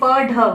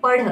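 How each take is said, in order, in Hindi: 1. अंतिम व्यंजन एक पूरा मूर्धन्य स्टॉप है। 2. अंतिम व्यंजन एक तेज़ मूर्धन्य फ़्लैप है। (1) "यह है पढ़, प ढ" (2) "जब ढ के नीचे बिंदी लग जाती है... उच्चारण हम हड़ में ड़ में करते हैं"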